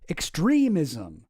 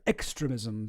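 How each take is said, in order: First: The word has a standard English pronunciation. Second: The word has a Spanish-like pronunciation. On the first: The speaker calls it right. "It sounds so vulgar" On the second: The speaker calls it wrong. "sounds much, much better. Much more, uh, I don't know, proper"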